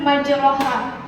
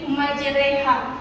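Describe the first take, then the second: First: The vowel after the r is an open 'a'. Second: The vowel after the r leans toward 'e'. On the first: "ayat yang bertuliskan majroha" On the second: "dibaca imalah miring yaitu menjadi majreha"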